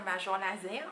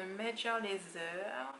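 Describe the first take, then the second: First: Deliberately French-accented English band name; French pronunciation. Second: Said in the usual way. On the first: Shown as a demonstration. Unsure how to pronounce the band's name, French accent. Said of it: "À la française". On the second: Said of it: "faire la française".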